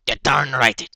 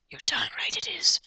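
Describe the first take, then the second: First: Said in the usual way. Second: High unvoiced whisper on "you're darn right it is"; whispered retry. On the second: Shown as a demonstration. Trying out the inspector's voice, whispered high. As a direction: try the line again in a whisper. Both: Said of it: "what's his voice?".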